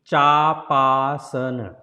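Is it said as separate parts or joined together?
joined. The parts are joined with a lengthened a. "if you say together"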